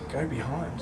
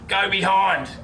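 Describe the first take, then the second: First: It is said in a low, sultry voice. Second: It is yelled loudly. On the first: "or in a sexy voice" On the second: "If one of them yells"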